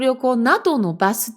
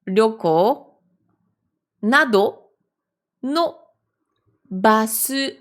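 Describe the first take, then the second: First: Read quickly, the words run together. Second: Read slowly, each word separated by pauses. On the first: "je relis un petit peu plus vite" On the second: "Je vais aller doucement"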